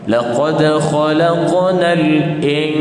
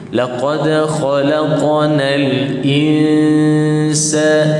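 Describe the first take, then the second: First: The nasal is held toward a k, like ng. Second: The nasal is held toward the s sound. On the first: The speaker calls it wrong. "semuanya bunyi seolah-olah macam standby dekat kaf" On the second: The speaker calls it right. "kena standby dekat huruf yang nak sebut tu"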